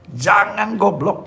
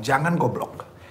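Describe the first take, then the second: First: "Jangan goblok" said higher, louder and slow, hitting "Jangan"; emphatic repeat. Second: Said in the usual way. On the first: Shown as a demonstration. Pastor warning the young women in the congregation, slow and emphatic. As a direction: stretch out "Jangan goblok" and punch "Jangan".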